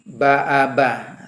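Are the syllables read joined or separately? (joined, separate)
joined. The syllables are read joined without breaks. "dibaca gabung"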